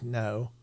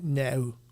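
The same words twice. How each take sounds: First: Said in a smooth southern English accent. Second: Said in a northern English accent. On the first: "Marty would say like no" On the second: "she would go no like that"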